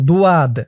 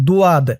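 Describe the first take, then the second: The two takes are said the same way.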